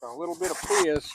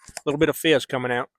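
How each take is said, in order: First: Put-on a soft, breathy aside in the cowboy accent, savoring the can's hiss; hushed fizz. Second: Said in the usual way. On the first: Host savoring the opened beer in a hushed cowboy aside. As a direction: lean in close and murmur it.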